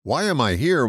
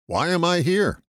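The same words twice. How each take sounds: First: "am" stressed, question rising at the end. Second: "here" raised and leaned on, falling at the end; stress on here. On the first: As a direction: lean on "am", let it lift. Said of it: "will get you a global and esoteric notion". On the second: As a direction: land the weight on "here". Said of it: "I put the accent on the word here". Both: Shown as a demonstration.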